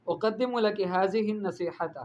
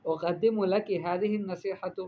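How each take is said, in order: First: Slow "ھذہ" said hazihi with a z; mispronounced ذ. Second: Slow, careful "ھذہ" as hadhihi; correct ذ. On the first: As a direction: read "ھذہ" wrongly, z for ذ. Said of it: "غلطی کی کہ ھذہ پڑھا". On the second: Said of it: "قولی، آپ کہیں". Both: Shown as a demonstration.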